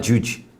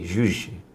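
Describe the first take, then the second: First: It begins with a hard 'j' sound. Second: It begins with a soft buzzing 'zh' sound. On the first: The speaker calls it wrong. "like a J U J" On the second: The speaker calls it right. "Zhuzh, not juj"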